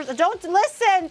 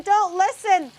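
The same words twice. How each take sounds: First: Listen stressed and slow; "listen" drawn out, falling; pleading. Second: "don't" hit hard and high; insistent. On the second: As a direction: stress on "don't", falling. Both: Real, not acted. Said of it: "repeated warning".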